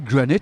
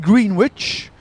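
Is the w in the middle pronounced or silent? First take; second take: silent; pronounced. First: Some letters are dropped, with the w silent. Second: Every letter is sounded, including the w. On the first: "mais ça se dit Greenwich" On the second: "C'est écrit Greenwich"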